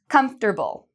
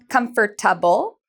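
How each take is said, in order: First: The word is said with three syllables. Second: The word is said with four syllables. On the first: The speaker calls it right. "We say comfortable" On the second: The speaker calls it wrong. "So we do not pronounce comfortable"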